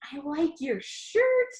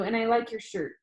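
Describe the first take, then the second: First: Slow, higher disbelieving echo; incredulous self-mockery. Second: Said in the usual way. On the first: Narrator echoes his awkward compliment, slow mocking disbelief. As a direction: repeat your own line as if you can't believe you said it. Narrator mocks own line.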